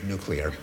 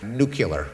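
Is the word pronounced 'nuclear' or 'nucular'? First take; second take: nuclear; nucular. First: It is pronounced in the standard way, 'nuclear'. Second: It is pronounced with an extra syllable, 'nucular'. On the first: The speaker calls it right. "as a pronunciation of nuclear" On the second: The speaker calls it wrong. "these errors"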